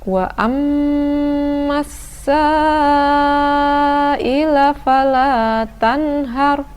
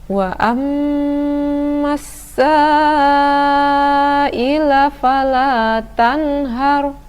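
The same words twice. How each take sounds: No difference in how they are said.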